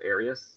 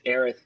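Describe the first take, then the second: First: The name ends with an s sound. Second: The name ends with a th sound. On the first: This is the familiar childhood name. "to me, it'll always be with an S" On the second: This is the official name. "It's Aerith with a TH"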